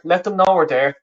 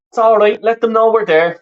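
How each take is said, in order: First: Said in the usual way. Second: Higher, louder call to the team; urging the players on from the stands. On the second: Real, not acted. Cheering on Ireland during the match.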